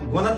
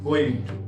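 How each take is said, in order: First: The words are blended into one short word. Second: Both words are said fully and separately.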